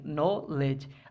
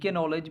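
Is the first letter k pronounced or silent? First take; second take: silent; pronounced. First: The word begins with an n sound. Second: The word begins with a pronounced k sound. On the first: The speaker calls it right. "फिर हम नो से शुरू करेंगे" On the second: The speaker calls it wrong. "ज़्यादातर लोग पहली के को भी पढ़ते हैं"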